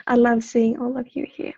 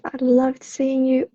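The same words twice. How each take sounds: First: Love said clearly without the d, slight weight on love; corrected love. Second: Says loved with a final d, the slip before the fix; I loved seeing you, past tense by mistake; slip saying loved. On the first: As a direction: fix it to love, present tense, leaning on love. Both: Real, not acted. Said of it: "Love, I said loved".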